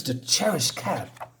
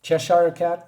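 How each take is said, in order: First: Cheshire said as "cherish"; mispronounced Cheshire. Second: Cheshire in three syllables, "chesh-ah-ruh"; spelled-out Cheshire. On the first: Acted. Quoting a character in the story, Cheshire said like "cherish". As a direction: say Cheshire in two syllables, like "cherish". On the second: Shown as a demonstration. Reader checking the character's word, Cheshire sounded out in three syllables. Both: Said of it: "probably that's how he said it".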